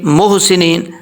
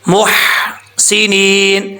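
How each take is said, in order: First: The h is a plain, soft h sound. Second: The h is a strong, throaty h sound. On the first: The speaker calls it wrong. "हा को आप हा पढ़ रहे हैं, दो आँखों वाली हा" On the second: The speaker calls it right. "ह की आवाज़ आ रही है, ये आना लाज़मी है"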